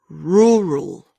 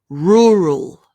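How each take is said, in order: No difference in how they are said.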